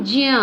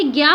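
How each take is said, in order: First: ज्ञ said as j joined to the nasal ञ; true pronunciation. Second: Said in the usual way. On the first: Shown as a demonstration. Teacher to students, giving the true pronunciation. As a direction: sound ज्ञ carefully as j plus ञ. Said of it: "परंतु इसका वास्तविक उच्चारण है". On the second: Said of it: "हम इसे ज्ञ पढ़ते हैं".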